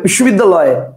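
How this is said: The word is said as one unbroken chunk. "কেউ একবারে বলবে বিশ্ববিদ্যালয়, কটা হলো? একটা।"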